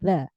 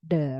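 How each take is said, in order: First: The first sound is a th with tongue between teeth. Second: The first sound is not a th sound. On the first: The speaker calls it right. "you put your tongue in between your teeth, so it will create the th sound" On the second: The speaker calls it wrong. "not the"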